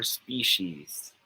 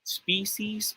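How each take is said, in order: First: Species as SPEE-sheez, drawn out; slow species with sh in the middle; second option. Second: Species as SPEE-seez, drawn out; slow species with s in the middle; first option. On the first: Tutor contrasts options for students, sh-sound pronunciation. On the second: Tutor contrasts options for students, s-sound pronunciation. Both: Shown as a demonstration. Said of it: "if it is pronounced as species".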